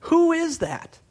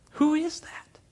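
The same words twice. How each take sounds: First: Who is that, cried out high and loud; a sudden high exclamation; loud high cry. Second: Who is that, whispered with a rising tune; an awed whisper to the crowd. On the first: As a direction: call out the question in alarm. Preacher echoing the question loudly. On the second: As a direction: hush it like a frightened secret. Same question repeated whispered. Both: Acted.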